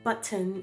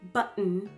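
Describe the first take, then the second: First: The middle consonant is a clear t sound. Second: The middle consonant is a glottal stop. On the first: "instead of saying button" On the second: "it's button. So those are some examples of guttural stops"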